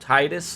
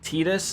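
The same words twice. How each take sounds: First: The first syllable is a 'tie' sound. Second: The first syllable is a plain 'tee' sound. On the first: This is the usual English way to say it. "instead of" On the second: This is how a Japanese speaker would say it. "they would just say like T"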